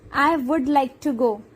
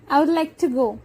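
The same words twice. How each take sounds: First: The word would is said in full. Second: Only the final d of would remains.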